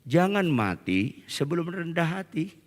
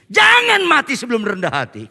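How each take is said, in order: First: Softer, measured exhortation; plain exhortation. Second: High, loud repeated exhortation; insistent shout. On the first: Preacher first urges the congregation to be humble, quiet measured exhortation. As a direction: say it quietly and evenly. First take, repeated louder after weak amen. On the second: Preacher gets only one amen from the congregation, insistent high shout. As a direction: shout it out at the crowd. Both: Real, not acted.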